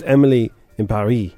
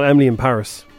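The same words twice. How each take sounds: First: Paris is said the French way, rhyming with Emily. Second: Paris is said the English way, not rhyming. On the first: The speaker calls it right. "It's supposed to rhyme" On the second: The speaker calls it wrong. "not Emily in Paris"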